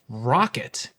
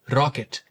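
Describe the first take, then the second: First: The R is an untapped, approximant R. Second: The R is tapped lightly with the tongue.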